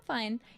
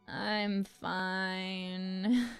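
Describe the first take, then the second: First: It sounds plainly sincere and untroubled. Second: It sounds unhappy, hinting at the opposite. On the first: The person really is fine. "there's no double meaning there" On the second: The person is actually not fine. "they say it in a way that s sounds like it is really implying that they're not fine"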